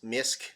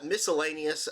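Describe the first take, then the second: First: It is said as one syllable ending in k. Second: It is said as the full word miscellaneous. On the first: "Maybe it's Misk" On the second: "I don't know if that's how you say it"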